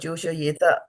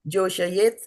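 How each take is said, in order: First: The word ends with an added a vowel. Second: The word ends on a bare t sound. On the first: The speaker calls it wrong. "don't add A's unnecessarily at the end" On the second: The speaker calls it right. "Joshayet instead of Joshayeta"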